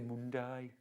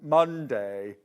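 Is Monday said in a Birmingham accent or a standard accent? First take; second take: Birmingham; standard. First: It is said with a Birmingham vowel. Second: It is said with a standard English vowel. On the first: "I say Monday" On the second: "I don't say mon- Monday anymore"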